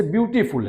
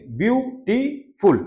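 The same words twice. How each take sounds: First: Said in the usual way. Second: ब्यूटीफुल drawn out slowly, each syllable clear; teacher spelling out a word by sound; slow model pronunciation. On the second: Shown as a demonstration. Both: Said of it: "कैसे इसको आप बोलेंगे".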